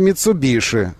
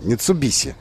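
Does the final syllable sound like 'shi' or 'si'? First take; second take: shi; si. First: The final syllable has a sh sound. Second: The final syllable has an s sound. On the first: The speaker calls it right. "А нет, оказывается, «Митсубиши»" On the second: The speaker calls it wrong. "поэтому «Митсубиси», думаешь ты"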